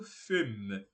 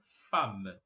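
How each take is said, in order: First: Femme with the written E sounded, like "fem"; the wrong E sound in femme; spelling pronunciation. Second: Femme with an open A, like "fam"; low, clear "fam" for femme; correct French pronunciation. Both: Shown as a demonstration. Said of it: "a gente não pronuncia esse E".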